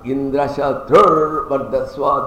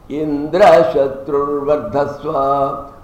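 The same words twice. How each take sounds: First: The raised pitch falls on the second word. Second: The raised pitch falls on the first word. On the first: Indra's enemy grows strong and Indra goes down. The speaker calls it right. "if the second word it is accentuated, it is called Antyodatta" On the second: Indra grows strong and his enemy goes down. The speaker calls it wrong. "if they were told wrongly ... This is called Adyodatta. The first syllable is accentuated up"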